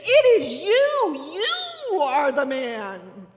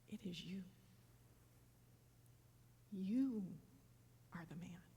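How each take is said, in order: First: It is said in a forceful, accusing way. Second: It is said in a calm, grounded way.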